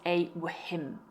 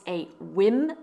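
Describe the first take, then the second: First: The word starts with a breathy h sound. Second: The word starts with a plain w sound. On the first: The speaker calls it wrong. "and not a whim" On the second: The speaker calls it right. "here we have a silent H. It's a whim"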